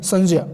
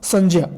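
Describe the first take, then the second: No difference in how they are said.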